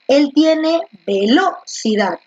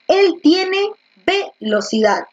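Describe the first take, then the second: First: The stress is on the second syllable, lo. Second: The stress is on the first syllable, ve.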